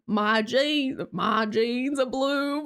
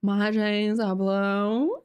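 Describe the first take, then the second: First: Slow hillbilly drawl on "jeans are blue"; mock hillbilly accent. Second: Very slow, exaggerated drawl, "blue" swooping up at the end. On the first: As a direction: stretch it in a put-on hillbilly accent. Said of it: "a hillbilly accent". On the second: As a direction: ham up the ad line, every word stretched way out. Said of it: "but it's like".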